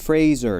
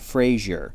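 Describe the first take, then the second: First: The second syllable sounds like 'zer'. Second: The second syllable sounds like 'zhur'. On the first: The speaker calls it right. "it's Brendan Fraser" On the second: The speaker calls it wrong. "not Frazier"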